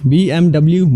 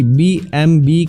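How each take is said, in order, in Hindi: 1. अंतिम अक्षर को 'double-u' कहा जाता है। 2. अंतिम अक्षर को 'vee' कहा जाता है। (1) "अक्सर हम बी एम डब्ल्यू बोलते हैं, जबकि यह गलत है" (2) "बी एम बी कहा जाता है"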